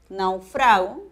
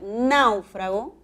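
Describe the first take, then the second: First: The stress is on the second syllable. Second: The stress is on the first syllable. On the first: It is a present-tense verb form. "que es un verbo, es una palabra grave" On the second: It names a shipwrecked person. "con tilde, esdrújula"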